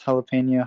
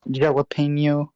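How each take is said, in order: First: The J is said like an H sound. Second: The J is said like an English J. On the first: "I know it's jalapeno" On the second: "because of the J. Saying it like English"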